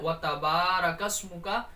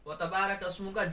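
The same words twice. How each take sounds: First: The vowel after B is drawn out long. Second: The vowel after B is short and rushed. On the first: The speaker calls it right. "इस तरीके से बा को खींचना है" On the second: The speaker calls it wrong. "लोग गलती करते हैं व तबारकस्मुका जल्दी पढ़ जाते हैं"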